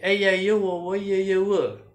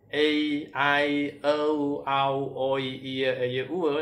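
First: The vowel sounds run together without any pauses. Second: Each vowel sound is said separately with pauses. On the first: The speaker calls it right. "bacanya harus digabung" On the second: The speaker calls it wrong. "bacanya bukan"

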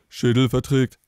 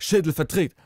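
First: It is said in a very deep voice. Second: It is said in a normal voice.

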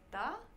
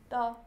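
First: The pitch rises from middle to high. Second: The pitch stays high and level. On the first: The speaker is questioning what was seen. "that's the second tone, because it's questioning" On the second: The boy points out something he has spotted. "that's the first tone in Chinese"

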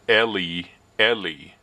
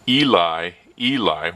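First: Only the second vowel is a long E. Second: Both vowels in Eli are long E sounds. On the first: "with the long E in the second syllable" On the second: "with long E's"

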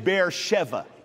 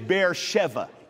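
First: The second part is said with a v sound. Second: The same.

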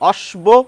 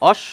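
First: A clear b sound follows the sh sound. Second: No b sound; the sh sound is lengthened. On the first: The speaker calls it wrong. "কেউ বলছি অশ্ব?" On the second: The speaker calls it right. "আমরা বলি অশ্ব"

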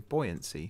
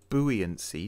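First: The word begins with a 'boy' sound. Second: The word begins with a 'boo' sound. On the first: The speaker calls it right. "You say buoyancy, so it's a boy" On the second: The speaker calls it wrong. "You don't say buoyancy"

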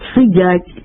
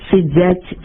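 First: The d is plain, without a hiss. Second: The d has a hissing, affricated sound. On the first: The speaker calls it right. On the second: The speaker calls it wrong.

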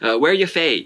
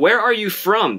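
First: It is said in a Scottish accent, shortened. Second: It is said in a standard American accent. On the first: "スコットランドでは人によってはWhere you fae って言ったりする" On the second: "Where are you from って普通にアメリカ英語とかでは言うんですよ"

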